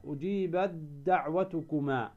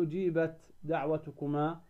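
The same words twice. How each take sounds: First: أجيبت دعوتكما with the ت merged into the د as one doubled dd; correct assimilation. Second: أجيبت دعوتكما with a clear separate t before the d; wrong pronunciation. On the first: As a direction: say أجيبت دعوتكما as ujibad-daʕwatukuma. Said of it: "تدغم التاء في الدال". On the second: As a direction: say أجيبت دعوتكما keeping the ت unmerged, as the mistake. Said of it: "ما تقول". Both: Shown as a demonstration.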